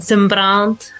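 It is said the Italian way, with the R.

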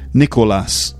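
The name is said with a Spanish pronunciation. This is how the name's owner would say it. "I think that's probably how you'd say it"

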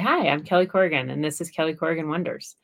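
It is said in a natural, conversational voice. The speaker sounds like herself. The speaker calls it right. "I got to sound like myself"

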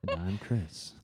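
It is said in a calm, smooth radio voice.

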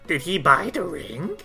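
It is said in Nakpeek's character voice.

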